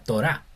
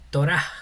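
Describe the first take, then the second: First: The word ends on an open a vowel. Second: The word ends with a breathy h sound. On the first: The speaker calls it right. "sería Torah, porque la G al final funciona como vocal" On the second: The speaker calls it wrong. "no sería como eh, Torah"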